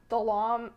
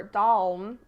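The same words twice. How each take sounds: First: Dalom said in two syllables, da-LOM; two-syllable pronunciation. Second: Dalm said as a single syllable; one-syllable pronunciation. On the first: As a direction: sound out Dalom with a vowel between l and m. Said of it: "or Dalm". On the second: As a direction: run Dalm together, no vowel between l and m. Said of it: "or Dalm from southern Minnesota". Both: Shown as a demonstration.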